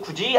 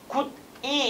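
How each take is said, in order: First: The middle consonant is a 'j' sound. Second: The middle consonant is a plain 'd' sound. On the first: The speaker calls it right. "입을 많이 안 벌리고도 굳이 안에서 도니까" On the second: The speaker calls it wrong. "굿이 이렇게 발음하잖아"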